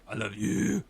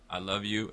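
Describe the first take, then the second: First: Louder, lifted emphasis on "you"; stress on you. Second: Said in the usual way. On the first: Shown as a demonstration. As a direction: punch the word "you" at the end. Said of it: "I emphasize the word you". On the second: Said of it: "did you hear the difference".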